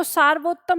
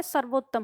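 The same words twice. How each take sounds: First: सार्वोत्तम said with a long aa in the first syllable, saar-vottam; teacher sounds out the wrong form सार्वोत्तम with a long saar; wrong spelling said. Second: सर्वोत्तम said with a short a, sar-vottam, no long aa; teacher gives the right form सर्वोत्तम with a short sar; correct spelling said. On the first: Teacher showing students the misspelled सार्वोत्तम, saar stretched. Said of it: "सार्वोत्तम नहीं होता". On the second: Teacher correcting students: सर्वोत्तम with short sar. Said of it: "तो क्या होता है?". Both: Shown as a demonstration.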